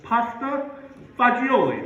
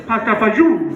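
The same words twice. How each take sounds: First: Pasta fagioli said fa-JOE-lee, every letter voiced; textbook pronunciation. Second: Pasta fagioli said pasta fazool, louder; Italian-American pronunciation. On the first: Shown as a demonstration. Comedian tries the spelled version, careful and precise. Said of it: "Let me spell that for you". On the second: Retold or imitated. Relatives correcting him, a louder fazool. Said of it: "Wrong again".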